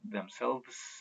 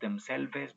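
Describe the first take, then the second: First: The final E is silent. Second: An extra final E vowel is pronounced. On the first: The speaker calls it right. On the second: The speaker calls it wrong.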